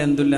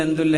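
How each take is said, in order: No difference in how they are said.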